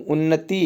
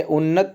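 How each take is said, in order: First: उन्नति with a final i; correct form उन्नति. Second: उन्नत ending on t, no vowel; wrong form उन्नत. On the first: Teacher giving the right word, उन्नति ending in i. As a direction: sound the last vowel of उन्नति. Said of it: "उन्नति है". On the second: Teacher ruling out this form, उन्नत without final i. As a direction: stop उन्नत at the t. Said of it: "ये उन्नत नहीं हो". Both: Shown as a demonstration.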